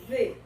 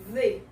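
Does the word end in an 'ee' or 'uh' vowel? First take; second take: ee; ee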